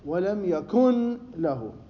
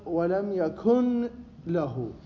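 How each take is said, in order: First: The n sound is pronounced clearly before l. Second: The n sound is pronounced clearly before l.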